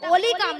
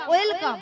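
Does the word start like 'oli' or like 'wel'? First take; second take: oli; wel. First: The word begins with an 'oli' sound. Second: The word begins with a 'wel' sound. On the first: The speaker calls it wrong. "ওটা ওলিকাম নয়" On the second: The speaker calls it right. "বলো ওয়েলকাম"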